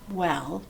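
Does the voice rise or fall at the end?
fall. The voice falls at the end, like a statement. It states something. The speaker calls it right.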